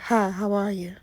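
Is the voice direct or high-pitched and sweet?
direct. It is said in a plain, direct voice.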